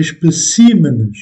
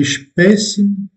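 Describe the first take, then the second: First: "Spécimen" with the stress moved to the last syllable, "men"; Portuguese plural stress. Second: "Spécimen" said the Portuguese way with the stress on "pé"; Portuguese singular stress. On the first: Teacher to French learners, showing how the plural shifts the stress. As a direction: move the stress of "Spécimen" onto the final "men". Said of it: "on accentue une autre syllabe". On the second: Teacher to French learners, showing the singular stress in Portuguese. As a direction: stress "Spécimen" on its second syllable. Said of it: "déplacement également de l'accent".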